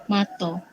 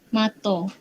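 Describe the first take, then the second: First: It ends in an o vowel. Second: The same.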